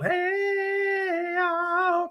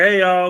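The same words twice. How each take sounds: First: A squeaky cartoon-high hey y'all, far above his own. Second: Said in the usual way. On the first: Streamer greeting a viewer in a squeaky chipmunk voice. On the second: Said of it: "same greeting redone high".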